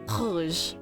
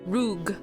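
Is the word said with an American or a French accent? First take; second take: French; American. First: It has a French accent and throaty R. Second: It has an American accent and English R. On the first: "But in French" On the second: "I'm gonna say it with the American accent"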